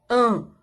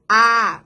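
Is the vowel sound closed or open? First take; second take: closed; open. First: The vowel is said closed. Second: The vowel is said open. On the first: "o som delas é fechado" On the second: "bem aberto"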